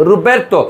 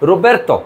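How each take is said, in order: First: It starts with r and ends in -erto. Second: The same.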